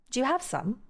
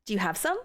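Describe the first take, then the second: First: "have" pitched high, then falling; British question tune, high fall on "have"; British question intonation. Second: American question tune, final rise on "some"; American question intonation. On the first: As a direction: put the peak of the question on "have". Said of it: "But British is". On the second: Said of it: "a normal American question would be like". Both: Shown as a demonstration.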